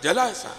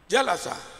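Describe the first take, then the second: First: The first syllable is not stressed. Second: The first syllable is pressed and stressed. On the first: The speaker calls it wrong. "Jangan dibaca jalasa, salah" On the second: The speaker calls it right. "sejak huruf pertama langsung naber, ditekan"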